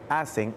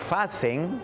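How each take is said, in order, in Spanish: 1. La palabra empieza con un sonido de vocal. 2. La palabra empieza con un sonido f. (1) "quiso decir" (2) "lo voy a pronunciar"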